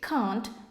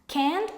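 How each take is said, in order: First: The word is said with a British accent. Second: The word is said with an American accent. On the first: "can't is British English" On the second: "Can't is American English"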